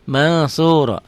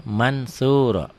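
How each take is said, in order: First: "Mansuro" with the N hidden in a nasal hum; ikhfa. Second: Said in the usual way. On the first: Shown as a demonstration. Teacher shows students the reading, "Mansuro" with hidden N. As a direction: melt the N of "Mansuro" into the s. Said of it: "Bacanya gimana?".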